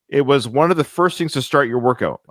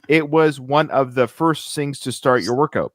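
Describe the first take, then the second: First: It is read in her own normal voice. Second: It is read imitating how he talks.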